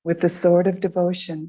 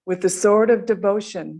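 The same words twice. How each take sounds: First: It is said more quietly than before. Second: It is said at normal speaking volume.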